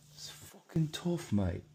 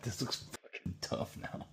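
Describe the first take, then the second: First: Much higher, slow hammed-up Aussie-style accent; bad mock accent. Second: Said in the usual way. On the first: Shown as a demonstration. Admiring his drawing, in a bad mock Australian accent. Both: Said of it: "That's a really bad accent".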